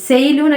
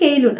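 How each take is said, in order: First: The name begins with an s sound. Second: The name begins with a k sound. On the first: "സെയ്ലൂൺ എന്നായിരിക്കും അധികം pronounce ചെയ്ത് തോന്നുന്നുണ്ട്" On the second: "അല്ലെങ്കിൽ കെയ്ലൂൺ"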